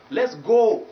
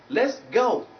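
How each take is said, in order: First: "go" as a long loud "gaw"; wrong pure vowel. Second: "go" gliding towards u; higher "Let's go" with gliding vowel; diphthong oh. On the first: Teacher showing the mistake, pure o. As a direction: hold "go" on one unglided o, slow and raised. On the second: Teacher modelling the right phrase, gliding diphthong. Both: Shown as a demonstration. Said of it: "not let's go".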